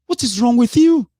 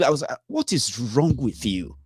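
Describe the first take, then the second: First: High, loud, disbelieving yell; frustrated outburst at his own followers; exasperated shout. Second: Said in the usual way. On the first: Real, not acted. Ranting at online followers.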